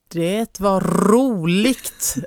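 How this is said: Every R and ending is pronounced clearly. "För då kan hon säga så här"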